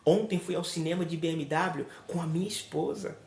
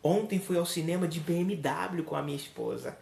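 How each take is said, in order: First: The stress falls on "esposa". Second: The stress falls on "BMW". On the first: The companion is what matters. "Observe que eu dei ênfase à minha esposa" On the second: The means of transport is what matters. "Observe que eu dei ênfase ao transporte, ao veículo"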